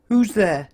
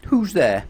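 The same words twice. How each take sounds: First: Much higher, thin and squeaky, a little louder; sad squeaky voice. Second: Said in the usual way. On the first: A narrator's reading. The voice behind the red door answers Mister Happy, squeaky and sad. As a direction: squeak it out like a sorry little creature. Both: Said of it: "a sad, squeaky sort of a voice".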